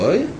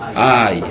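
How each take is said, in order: First: It is said the Ashkenazi way, 'oy'. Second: It is said the Sephardi way, 'ay'.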